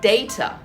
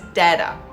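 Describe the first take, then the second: First: It is said in a non-American way. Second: It is said the American way, like dada. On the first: "if you pronounce this word as data" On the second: "the Americans pronounce it as data"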